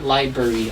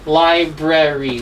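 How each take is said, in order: First: The middle R sound is dropped. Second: The middle R sound is pronounced. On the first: The speaker calls it wrong. "not library" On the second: The speaker calls it right. "there's an R there. Library"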